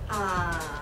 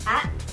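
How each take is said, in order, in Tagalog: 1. Bumababa muna ang pitch, tapos tumataas. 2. Medyo mabilis ang pagkakasabi ng pantig. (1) "Third tone, pababa at pataas" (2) "Sa second tone, medyo mabilis"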